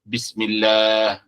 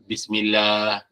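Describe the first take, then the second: Both takes have the same delivery.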